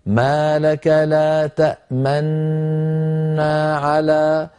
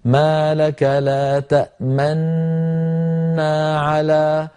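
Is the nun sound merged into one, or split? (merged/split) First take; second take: merged; merged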